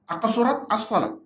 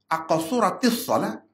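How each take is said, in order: First: The words join with no added linking vowel. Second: An added 'i' vowel links the two words. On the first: The speaker calls it wrong. "Kalau kita sambung itu salah" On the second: The speaker calls it right. "aqasuratis salat tu baru"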